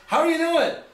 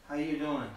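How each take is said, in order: First: It is said in an upbeat, energetic way. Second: It is said in a flat, deflated way.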